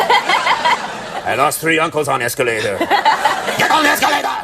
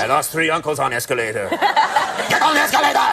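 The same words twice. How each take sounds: First: Slow, heavy mock Russian accent, laughing; hammed-up Russian accent through laughter; joking Russian accent, drawn out. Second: Put-on playful Russian accent, second time; Russian accent, jokey; mock Russian accent. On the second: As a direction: clip of the Russian accent gag with a laugh. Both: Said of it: "let me imitate the Russians".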